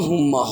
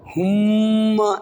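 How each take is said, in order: First: The doubled m is short, without a nasal hum. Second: The doubled m is held with a nasal hum. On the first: The speaker calls it wrong. "হুম্মা হবে না" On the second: The speaker calls it right. "এখানে গুন্না হবে"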